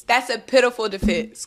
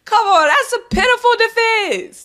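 First: Said in the usual way. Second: High, loud scoffing "pitiful"; mocking scoff. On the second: Real, not acted. Repeating the line to viewers, first take high and scoffing. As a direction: sneer it out high.

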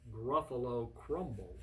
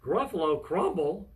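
First: Sly menace. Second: Loud storybook exclamation; shocked repeat. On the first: Mouse threatens Gruffalo with his favorite food, menacing. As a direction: lower the volume and draw out the threat. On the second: Gruffalo hears he is the meal, shocked. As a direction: exclaim it aghast. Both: Acted.

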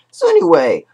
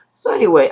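First: So anyway jumps up in a crack; real voice crack, high squeak. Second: Said in the usual way. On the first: Real, not acted. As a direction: voice breaks upward. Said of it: "sorry if my voice is cracked". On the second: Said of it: "I'm very sorry if it was very cracked".

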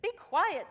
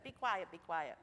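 First: Loud, high snapping yell. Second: Said in the usual way. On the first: A narrator's reading. Crowd silencing the blind beggar, loud yell. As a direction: shout him down. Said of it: "they yelled at him". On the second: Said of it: "and they said".

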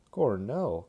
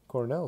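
First: A loud, delighted shout of Cornell; Crosby cries out the name of his own college, delighted; glad cry. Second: Said in the usual way. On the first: A narrator's reading. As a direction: bellow Cornell like meeting an old friend. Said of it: "cried Crosby gladly".

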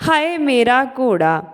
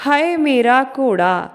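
The two takes are said the same way.

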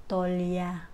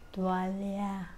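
First: Tolya in two quick syllables, no w; Indian tolya. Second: Tuwalya slow, three full syllables tu-wal-ya; Filipino tuwalya. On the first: Vlogger showing the Indian tolya, two syllables. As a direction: squeeze tuwalya into tolya. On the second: Vlogger showing the Filipino tuwalya, slow and full. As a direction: say tuwalya slowly, every syllable. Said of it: "Sabi mo". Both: Shown as a demonstration.

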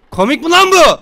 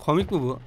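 First: Louder, higher angry repeat; angry yell. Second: Said in the usual way. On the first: Real, not acted.

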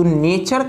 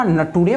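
First: Said in the usual way. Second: नटूरे, "nature" read letter by letter as na-too-ray; mispronounced nature. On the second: Retold or imitated. Teacher quoting pupil's misreading of nature, mispronounced as नटूरे. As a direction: say नटूरे as a naive spelling reading of "nature". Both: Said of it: "तू नेचर का नटूरे पढ़ रहे हो".

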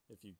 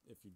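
No difference in how they are said.

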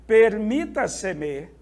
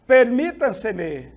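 First: Permítaseme slower, stress on MI; teacher repeats slowly; model pronunciation. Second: Permítaseme slow, stress on MI, falling; slow teaching read; model pronunciation. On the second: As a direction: sound out Permítaseme for students. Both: Shown as a demonstration. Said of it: "Exemplos de palavras sobre esdrújulas".

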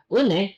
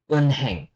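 First: "Uneng" with the h silent; correct linked pronunciation. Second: "unheng" with an audible h; wrong spelling pronunciation. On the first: Korean teacher contrasting two forms, linked pronunciation. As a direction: move n onto the next vowel in "Uneng". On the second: Korean teacher showing what not to say, spelling pronunciation. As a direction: keep un and heng apart in "unheng". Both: Shown as a demonstration. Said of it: "Uneng, not".

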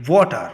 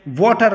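First: वाटर with a crisp clear T, British style; British water. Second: वाटर with the T softened toward a D; American water. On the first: Teacher shows the British वाटर, clear T. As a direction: say वाटर with a sharp T sound. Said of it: "जैसा कि". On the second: Teacher shows the American वाटर with a D sound. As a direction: say वाटर as "wader", flapped T. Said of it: "उसी टी को डी के आवाज़ से बोला जाता है". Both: Shown as a demonstration.

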